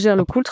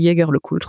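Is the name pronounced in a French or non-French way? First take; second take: French; non-French. First: The name is pronounced the French way. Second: The name is pronounced a non-French way. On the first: "à la française" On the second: "tu peux prononcer Jaeger-LeCoultre aussi si tu veux"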